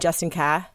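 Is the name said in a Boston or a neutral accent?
Boston. The name is said in a Boston accent.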